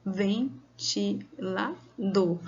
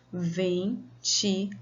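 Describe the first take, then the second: First: Ventilador split into four slow beats, ven-ti-la-dor; syllable by syllable. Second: Ventilador said slowly but joined; slowly spoken. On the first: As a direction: count out Ventilador very slowly, syllable by syllable. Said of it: "Você falou quatro vezes". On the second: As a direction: say Ventilador slowly in one piece. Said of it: "vamos contar quantas vezes você falou". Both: Shown as a demonstration.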